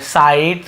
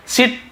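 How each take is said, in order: First: "साइट" with an "eye" vowel; long I reading. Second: "सिट" with short "ih"; short I misreading. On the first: Teacher giving the correct reading, "साइट" with "eye". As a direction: say site as "साइट", rhyming with night. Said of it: "इसे हम आई पढ़ रहे हैं". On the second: Teacher showing the rejected reading, "सिट" with short i. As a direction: misread site as "सिट", like sit. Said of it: "सिट नहीं पढ़ रहे". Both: Shown as a demonstration.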